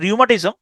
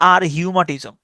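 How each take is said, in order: First: Said in the usual way. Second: "আর হিউমাটিজম" with R split off and H sounded; memory-aid reading "আর হিউমাটিজম", silent H voiced; spelling pronunciation. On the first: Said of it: "এটা উচ্চারণটা হচ্ছে রিউমাটিজম". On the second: Shown as a demonstration. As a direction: say "আর হিউমাটিজম" as ar-hiu-ma-ti-zom. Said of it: "তবে উচ্চারণটা আপনি এভাবে করতে পারেন".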